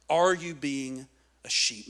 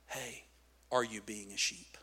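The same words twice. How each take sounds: First: Said in the usual way. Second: Very soft, low question; hushed, low aside to the listeners; quiet challenge. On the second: Real, not acted. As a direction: ask it gently, almost under your breath. Gentle challenge, then repeated louder.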